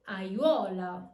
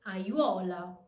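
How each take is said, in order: No difference in how they are said.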